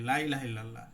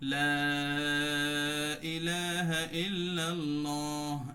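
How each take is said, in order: First: The first vowel is cut short. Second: The first vowel is drawn out long. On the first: Surely there is a god besides Allah. The speaker calls it wrong. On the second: There is no god except Allah. The speaker calls it right.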